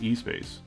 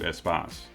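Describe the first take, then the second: First: The opening E is said as a separate letter. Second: The opening E is blended into one word. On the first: This is how most Americans would say it. The speaker calls it wrong. "most Americans would probably pronounce as E-Space" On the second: This is probably the correct pronunciation. The speaker calls it right. "the correct pronunciation was probably closer to Espace"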